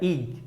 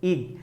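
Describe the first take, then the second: The two takes are said the same way.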